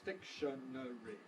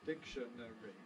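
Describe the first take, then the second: First: All four syllables are said separately. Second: All four syllables are said separately.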